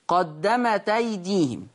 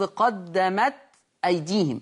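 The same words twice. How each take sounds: First: The glottal stop is dropped, joining the words. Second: The glottal stop is kept before the second word. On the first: "يقرأها ورش" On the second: "التاء ساكنة"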